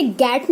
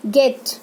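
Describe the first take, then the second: First: गैट with a wide open ae as in cat; wrong vowel. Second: गेट with a closer, short e; correct short e. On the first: Teacher shows the mistake, गैट with an open ae vowel. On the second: Teacher corrects the vowel, गेट with short single e. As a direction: keep the vowel of गेट narrow, e rather than ae. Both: Shown as a demonstration. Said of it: "इसे गैट नहीं बोलेंगे".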